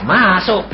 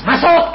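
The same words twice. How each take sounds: First: Said in the usual way. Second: High, loud order with a laugh; laughing command. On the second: Retold or imitated. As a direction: bark it out gleefully.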